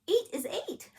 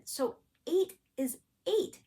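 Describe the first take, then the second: First: Much higher exasperated eight is eight; exasperated repeat. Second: Slow, higher, stressing each eight; insisting on eight. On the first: Repeating to the confused agent, exasperated and high. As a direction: throw up your hands at the obvious. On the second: Explaining to the bank agent, slow insistent eight. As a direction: spell it out like the obvious. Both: Shown as a demonstration. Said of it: "eight doesn't have an R in it".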